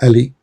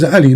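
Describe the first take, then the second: First: Ali opened with a simple English A; Latinised pronunciation. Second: Ali opened with the Arabic throat consonant ayn; Arabic pronunciation. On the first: Showing a caller the replaced letter, English-style "Ali". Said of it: "Ali is a, a letter A". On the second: Teaching a caller the real name, Arabic throaty "Ali". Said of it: "It is Ali, not Ali". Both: Shown as a demonstration.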